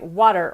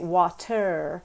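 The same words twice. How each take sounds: First: The T is a quick tap of the tongue. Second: The T is pronounced fully and clearly. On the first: "where it's a much more rapid hitting of the tongue against the alveolar ridge" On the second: "because that actually takes a lot longer"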